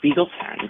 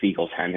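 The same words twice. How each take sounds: First: Spiegel is said with a casual English pronunciation. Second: Spiegel is said with a careful German pronunciation.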